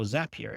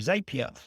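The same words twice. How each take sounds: First: It is said with an American pronunciation. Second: It is said with a British pronunciation.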